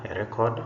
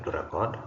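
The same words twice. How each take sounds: First: A RECord, noun stress; stress on first syllable. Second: To reCORD, verb stress; stress on second syllable. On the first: Teacher reads the bold noun, first-syllable stress on "record". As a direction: hit "rec" in "a record". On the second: Teacher reads the bold verb, second-syllable stress on "record". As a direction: hit "cord" in "to record". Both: Shown as a demonstration. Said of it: "emphasis is going to be on the words".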